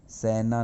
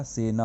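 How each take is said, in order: First: "सेना" with an open ai vowel, saina; गलत उच्चारण. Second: "सेना" with a close e vowel, se-na; सही उच्चारण. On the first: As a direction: say "सेना" wrongly as sai-na. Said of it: "सेना नहीं होता". ("सेना" को सैना जैसा बोलें) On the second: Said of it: "सेना होता है". ("सेना" में ए की सही मात्रा) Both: Shown as a demonstration.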